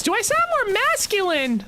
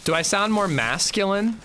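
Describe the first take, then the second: First: Very high, far-off squeak; squeaky high voice. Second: Rising question. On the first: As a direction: ask it in a silly squeaky falsetto. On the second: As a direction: pitch climbs on the question. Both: Shown as a demonstration. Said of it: "The way my voice raises when I ask that".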